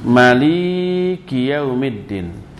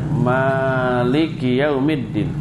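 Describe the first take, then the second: First: The middle syllable li is held long. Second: The first syllable ma is held long. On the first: "mak pendek tapi li-nya yang panjang" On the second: "membaca dengan mak yang panjang"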